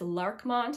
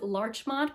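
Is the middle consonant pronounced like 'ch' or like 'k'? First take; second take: k; ch. First: The middle consonant sounds like 'k'. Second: The middle consonant sounds like 'ch'. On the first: This is how someone who may know better says it. "I heard someone else pronounce it as Larkmont" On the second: This is how the speaker usually says it. "I say that as Larchmont"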